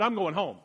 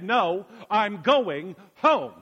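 First: Said in the usual way. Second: "I'm going home" slow and louder, each word drawn out; stubborn insistence. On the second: Retold or imitated. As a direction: dig in, refuse to budge. Insisting to friend's mom.

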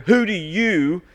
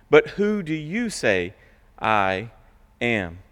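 First: "you" lifted and leaned on hard; stress on you. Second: Said in the usual way. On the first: Shown as a demonstration. Pastor showing the verse's emphasis, stress on "you". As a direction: hit the word "you" and hold it. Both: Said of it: "the emphasis is on the you".

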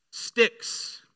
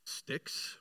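First: "Sticks." thrown back high and loud, breathy; mocking taunt. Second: Breathy, softer scoffing "Sticks?"; scornful whisper. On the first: David mocking Goliath's word back at him, high mockery. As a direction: mimic the giant's sneer, louder. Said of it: "a taunt of his own". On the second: Retold or imitated. Goliath scoffing at David's staff, whispered contempt. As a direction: spit out "Sticks?" in disbelief. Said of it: "with scorn and derision".

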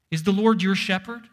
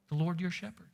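First: Preacher leaning hard on Lord; stress on Lord. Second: Your leaned on, softer, rising; softer take, the weight on your; stress on your. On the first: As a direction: Lord hit loud in a rising question. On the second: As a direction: quietly press the word your. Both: Shown as a demonstration.

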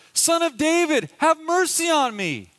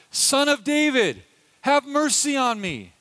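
First: Much higher, louder desperate call; crying out louder. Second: Raised pleading call, higher and louder; crying out. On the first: Beggar calling louder to Jesus over crowd, desperate shout. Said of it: "he cries out even louder". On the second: Blind beggar calling to passing Jesus, pleading cry. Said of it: "he hears this man crying out". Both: Retold or imitated.

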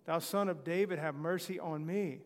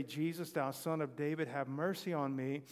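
First: A louder mock plea; crying out more. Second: Said in the usual way. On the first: Blind man pleading over the crowd, louder. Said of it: "he cried the more a great deal". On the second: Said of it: "He began to cry out and say".

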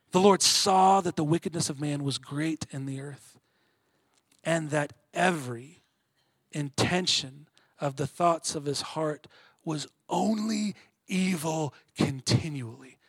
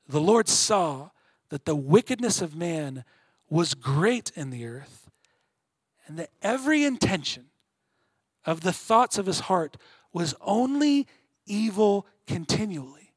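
First: Solemn scripture reading. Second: Builds to a stronger push on every and only; emphatic rereading. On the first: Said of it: "Let the darkness ... settle in". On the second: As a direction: reread it and lean hard on only evil. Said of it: "darkness that's being communicated in that verse". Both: Shown as a demonstration.

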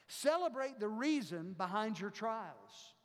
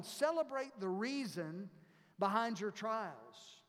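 First: Said in the usual way. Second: "Celebrate the reason" lifted, then a pause and a slow "behind your trials"; slow, paced first statement of the step; spelled out slowly. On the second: Shown as a demonstration.

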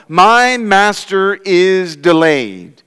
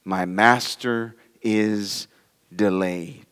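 First: MY MASTER IS DELAYED spread out slow and emphatic; slow, raised, deliberate quote; wicked servant's words. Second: Slow, low and soft, as private thought; hushed, drawn-out inner voice; said in himself. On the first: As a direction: weigh each word of "My master is delayed". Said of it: "wicked servant says to himself". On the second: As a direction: think it aloud softly, word by word. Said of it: "he said in himself". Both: Retold or imitated.

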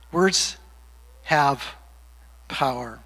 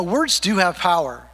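First: "Words", "have", "power" set apart by long pauses; word-by-word emphasis. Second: Said in the usual way. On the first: Real, not acted. Preacher repeats his key line to the congregation, word-by-word emphasis. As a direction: land each word alone, dropping low and soft on "power".

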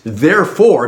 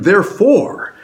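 First: Said in the usual way. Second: Therefore lifted higher and pressed; emphatic therefore. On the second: Shown as a demonstration. Preacher stressing the passage's therefore, pitched higher. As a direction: hit therefore hard to turn the sermon. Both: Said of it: "because of how Luke sets the stage".

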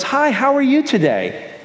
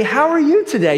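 First: Chirpy greeting. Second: High, bright mock greeting from a stranger; cheery stranger greeting. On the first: Retold or imitated. Friendly stranger greeting in store. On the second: Preacher imitating a friendly stranger at the post office, high cheery greeting. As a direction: sing it out like an overly friendly clerk. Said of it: "for somebody randomly to say".

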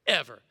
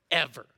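First: "Ever." repeated lower and louder still; stress on Ever. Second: Ever dropped low and punched louder; stress on ever. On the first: Pastor repeating the low attendance figure, heavier. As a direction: hammer "Ever." as the final word. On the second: Pastor stressing record low attendance, punched. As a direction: land "ever." low and heavy. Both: Shown as a demonstration.

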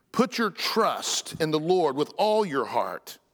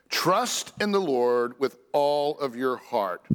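First: Said in the usual way. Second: Slow read, with "Trust" weighted first; stress on trust. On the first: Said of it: "when he says". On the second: Shown as a demonstration. Preacher rereading the verse to stress its first word. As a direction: open hard on "Trust", then take it slowly. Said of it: "by the emphasis of the first word, trust".

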